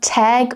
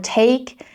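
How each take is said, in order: First: The vowel is short. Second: The vowel glides like an ay sound. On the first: "it's not tag" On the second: "or take"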